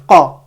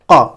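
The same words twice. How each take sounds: First: The k sound is deep, resonating in the mouth. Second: The k sound is deep, resonating in the mouth.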